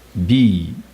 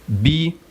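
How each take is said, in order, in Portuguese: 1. A palavra é dita em tom baixo. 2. A palavra é dita em tom alto. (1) "é empurrar, é o tom baixo" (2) "perguntar, tom alto"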